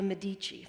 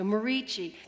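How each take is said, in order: First: The middle consonant is a D sound. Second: The middle consonant is an R sound. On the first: The speaker calls it wrong. "I obviously said that wrong" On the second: The speaker calls it right. "So Merici"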